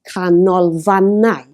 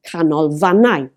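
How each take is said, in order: First: Canolfannau slow and loud, syllable by syllable, stressing "fan"; stress on second-last syllable. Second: Canolfannau with "fan" emphasised, at normal pace; stress on second-last syllable. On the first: Teacher showing a four-syllable word, Canolfannau slowly stressed on "fan". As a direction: stretch out Canolfannau and hit "fan". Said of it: "the emphasis is on canolfannau". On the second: Teacher introducing a longer word, canolfannau stressed on "fan". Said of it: "the last syllable but one again". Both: Shown as a demonstration.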